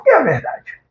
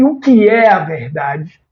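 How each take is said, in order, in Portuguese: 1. Soa como uma pergunta desafiadora, de afronta. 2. Soa como uma pergunta sincera, genuinamente curiosa. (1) "de quem faz uma afronta" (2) "entonação de quem deseja uma resposta"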